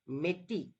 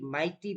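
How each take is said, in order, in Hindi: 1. पहला अक्षर 'may' जैसा सुनाई देता है। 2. पहला अक्षर 'my' जैसा सुनाई देता है। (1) "जो मे हम मंथ बोलते हैं, मे और टी" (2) "एम आई जी एच टी, माइटी भी प्रोनाउंस कर सकते हैं"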